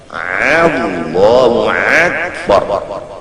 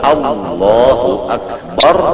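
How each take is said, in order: First: Akbar begins with a harsh throat sound, ain. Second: Akbar is pronounced clearly with no altered sound. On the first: The speaker calls it wrong. "jangan membaca A menjadi ain, akbar dibaca ain" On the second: The speaker calls it right. "Kalau Allahu Akbar bujur-bujur"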